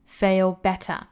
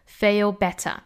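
No difference in how they are said.

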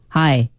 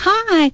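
First: It is said with obvious disgust. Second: It is said in a friendly tone.

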